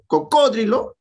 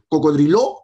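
First: The stress is on the second syllable. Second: The stress is on the last syllable. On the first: "la tres, esdrújula" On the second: "sería una aguda"

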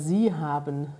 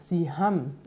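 First: The verb is said in full as haben. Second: The verb ends in an m sound, like ham.

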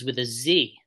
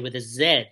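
First: The letter is said as zee, American style. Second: The letter is said as zed, Canadian style.

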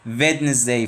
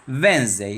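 First: The middle d sound is clearly pronounced. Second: The middle d sound is left out. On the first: The speaker calls it wrong. "Kesinlikle sakın ama sakın Wednesday falan demiyorsunuz" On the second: The speaker calls it right. "Sanki o D harfi orada yok"

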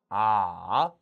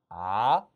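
First: The pitch dips low and then rises. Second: The pitch rises from mid to high. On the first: "삼성" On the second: "이성"

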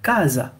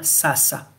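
First: The word begins with a K sound. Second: The word begins with an S sound. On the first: The speaker calls it right. "le C plus les voyelles A, O et U donnent le son K" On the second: The speaker calls it wrong. "quand on est francophone, on va lire sasa"

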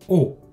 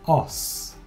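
First: A closed O is said with no S. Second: An open O is followed by a sounded S. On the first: It refers to several bones. "on ne prononce pas le S. Et le O maintenant est ce qu'on appelle un O fermé" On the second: It refers to one bone. "Au singulier, on prononce le S et le O est ce qu'on appelle un O ouvert"

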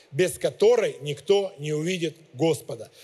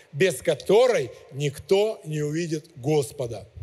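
Both takes have the same delivery.

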